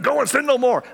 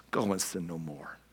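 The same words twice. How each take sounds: First: High, louder finger-wagging rebuke; higher, louder preachy scolding; harsh religious scold. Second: Soft, low and tender; softer, lower Jesus speaking kindly; gentle. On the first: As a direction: throw the verse at her like a scold. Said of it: "the way that I picture some religious people". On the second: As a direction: give the command kindly, under the breath. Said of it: "that's how he said it". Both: Retold or imitated.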